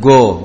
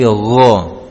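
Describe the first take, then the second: First: It starts with a hard g stop. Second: It starts with a throaty gh fricative. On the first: The speaker calls it wrong. "bukan go" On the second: The speaker calls it right. "tapi go"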